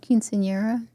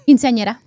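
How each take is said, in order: First: The word is said with English-style pronunciation. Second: The word is said with Spanish pronunciation. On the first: It is said so that English speakers understand. "I said it like that so you can understand me" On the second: It is the authentic pronunciation. "You can say it correctly"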